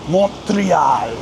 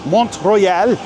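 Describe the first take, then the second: First: "Montreal" as "mon-tree-AHL", with a drawn-out ending; emphatic French-style pronunciation. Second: "Montreal" said like "mont-roy-EL"; alternate pronunciation of Montreal. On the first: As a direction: stress the E and open AL of "Montreal". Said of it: "you gotta say it with that emphasis". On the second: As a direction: say "Montreal" as "Mont Royal", with an O sound in the middle. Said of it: "or as you probably know it". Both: Shown as a demonstration.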